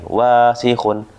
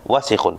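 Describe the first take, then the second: First: One vowel is drawn out long. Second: All the vowels are said short. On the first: The speaker calls it wrong. "bukan wasikhun" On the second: The speaker calls it right. "Wasikhun pendek"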